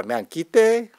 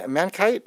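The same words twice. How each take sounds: First: "Mankite" drawn out as man-KEE-tay; pronounced man-kee-tay. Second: "Mankite" said as man-KITE, rhyming with night; pronounced man-kite. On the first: Host tries a chatter's name, "Mankite" as man-kee-tay. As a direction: give "Mankite" a foreign-sounding ending, kee-tay. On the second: Host tries a chatter's name, "Mankite" as man-kite. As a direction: say "Mankite" with a one-syllable "kite" ending. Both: Shown as a demonstration. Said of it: "how you pronounce it".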